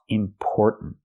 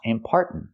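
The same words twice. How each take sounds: First: The 'por' vowel sounds like the one in 'store'. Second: The 'por' vowel sounds like the one in 'car'. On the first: The speaker calls it right. "but or like store and more" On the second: The speaker calls it wrong. "Not R like car and far"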